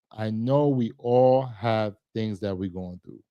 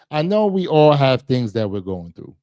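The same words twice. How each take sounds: First: Said in the usual way. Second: Louder, pressing the point; emphatic plea. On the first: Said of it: "repeated line, second take". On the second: Real, not acted. To viewers urging them to check on family, louder plea. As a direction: lean in and insist. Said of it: "repeated line, first take".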